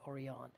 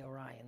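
First: "Orion" said oh-ree-AHN, ending on an open AHN. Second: "Orion" said the common English way, oh-RYE-un. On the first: Correcting the name for listeners, "Orion" as oh-ree-AHN. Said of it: "They say Orion". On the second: Showing listeners what the Orion people don't say, "Orion" as oh-RYE-un. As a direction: say "Orion" with RYE stressed in the middle. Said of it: "They don't say Orion". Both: Shown as a demonstration.

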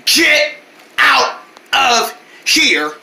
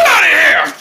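First: Each word of "get out of here" set apart; very slow, one word at a time with gaps; slow, spelled-out repeat. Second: Loud, higher yell, run together; shouted order. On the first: Vendors repeating the order to the boys, slow and emphatic. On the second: Vendors driving away the mocking boys, shouted order. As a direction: burst out with a sudden shout. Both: Acted. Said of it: "We said".

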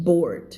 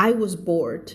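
First: Bored with a clear final d, low and falling; bored said as bord. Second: Said in the usual way. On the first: Shown as a demonstration. Teacher modelling the correct way to say bored. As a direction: say bored as bord, not bor-ed. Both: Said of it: "ห้ามอ่าน bored นะ".

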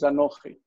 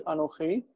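First: "anochi" accented on "no"; "anochi" with penultimate stress; stress on middle syllable. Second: "Anohi" accented on the final "hi"; "Anohi" with normal end stress; stress on last syllable. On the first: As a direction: flip the accent back to the "no" of "anochi". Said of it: "likes to flip that accent over". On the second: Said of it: "Anohi is normally accented here". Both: Shown as a demonstration.

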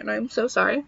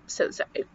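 First: Said in the usual way. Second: A real, barely breathed whisper of sorry; soft whispered sorry trailing off; whispered apology. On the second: Real, not acted. Apologising for the long rant.

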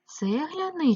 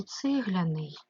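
First: "Цегляний" with an open "е" after "Ц"; clear E vowel. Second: "цегляний" with the first vowel said as "и"; E turned to Y. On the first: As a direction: sound out "Цегляний" as tseh-lia-nyi. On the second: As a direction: sound out "цегляний" as tsyh-lia-nyi. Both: Shown as a demonstration. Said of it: "тому що цегла".

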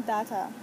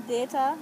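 First: "data" as DAH-ta, falling at the end; "data" pronounced dah-tah; alternative "data". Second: "data" as DAY-ta, rising at the end; "data" pronounced day-tah; Saint Croix "data". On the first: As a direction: say "data" with an ah in the first syllable. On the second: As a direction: say "data" with a long ay, loud and lifted. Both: Shown as a demonstration. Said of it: "in my accent".

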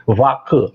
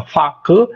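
First: "vacu" with a voiced V, falling as second item; voiced initial consonant. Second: "Facu" with an unvoiced F, pitched up as first item; voiceless initial consonant. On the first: Linguist compares two forms, voiced "vacu". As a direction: contrast "vacu" by its voiced opening fricative. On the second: Linguist compares two forms, voiceless "Facu". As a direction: contrast "Facu" by its voiceless opening fricative. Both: Shown as a demonstration. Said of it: "a fricativa surda ou sonora".

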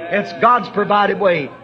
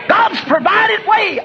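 First: Said in the usual way. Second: High, slow, shouted refrain; God's provided way cried out at the peak of the sermon; preacher's shout. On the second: Acted. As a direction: hit each word as a proclamation.

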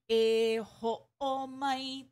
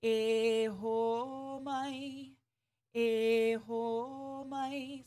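First: "E ho o mai" with a glottal break before o; "E ho o mai" chopped, a stop between ho and o; choppy with okina. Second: "E ho mai" slow and legato, no break; "E ho mai" sung smooth, vowels linked. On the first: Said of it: "It shouldn't sound like". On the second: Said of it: "Make sure it's nice and smooth". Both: Shown as a demonstration.

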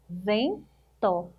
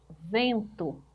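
First: "Vento" as two parts, ven, pause, to; split into syllables. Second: Said in the usual way. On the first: Shown as a demonstration. Teacher counting two syllables for pupils, "Vento" split apart. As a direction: break "Vento" after "Ven" with a clear gap. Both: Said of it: "Duas sílabas também".

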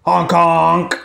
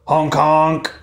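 First: Honking like a goose; loud, nasal goose call. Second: Honking like a goose. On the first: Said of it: "It's Missus Goose". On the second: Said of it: "Missus Goose said". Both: Acted.

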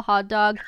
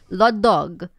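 First: Said in the usual way. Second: Put-on louder, Italian-accented "la dog"; grandmother's Italian English. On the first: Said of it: "English words". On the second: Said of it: "kinda turn them into Italian".

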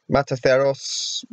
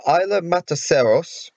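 First: MATACEROS as "mata-THEH-ros", slower; th pronunciation. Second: MATACEROS with an s, "mata-SEH-ros"; s pronunciation. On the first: Vlogger trying the name another way, Mataceros said "mata-theros". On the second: Vlogger attempting an island name, Mataceros said "mata-seros". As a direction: Mataceros with a plain s for the c. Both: Shown as a demonstration. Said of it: "however you pronounce it".

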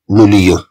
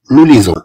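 First: "nous lions" said as noo lee-ON, with no z sound; the mistaken "nous lions" a pupil might say, shown as the wrong way; wrong form nous lions. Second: "nous lisons" said clearly as noo lee-ZON, stressing the z; the right form "nous lisons", set firmly against the mistake; correct nous lisons. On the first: Teacher shows third graders the wrong form "nous lions". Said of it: "لا نقول nous lions". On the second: Teacher gives third graders the correct "nous lisons", clearly stressed. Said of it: "نقول nous lisons". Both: Shown as a demonstration.

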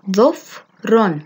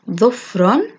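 First: ظفر broken slowly into separate syllables; split into syllables. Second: Said in the usual way. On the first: Shown as a demonstration. Teacher breaking a word down for children, syllable by syllable. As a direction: sound out ظفر piece by piece, very slowly. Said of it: "تحليل الكلمات إلى مقاطع". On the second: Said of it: "تركيب من المقاطع كلمات".

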